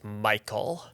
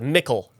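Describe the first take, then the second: First: The name is said like 'Michael'. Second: The name is said like 'mickle'. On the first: It is how other species came to say the name. "you slowly started to be known as Michael" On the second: It is the goblin way of saying the name. "my gob- the goblin pronunciation"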